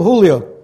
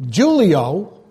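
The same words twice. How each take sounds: First: It is said with a Spanish pronunciation. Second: It is said with an English pronunciation.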